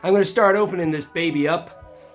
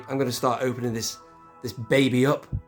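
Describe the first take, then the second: First: It is said in an American accent. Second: It is said in the speaker's ordinary accent. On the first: The speaker calls it right. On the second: The speaker calls it wrong.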